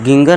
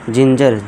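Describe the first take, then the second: First: It begins with a hard g sound. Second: It begins with a j sound. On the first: The speaker calls it wrong. "गिंगर नहीं" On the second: The speaker calls it right. "जिंजर जा कर देंगे"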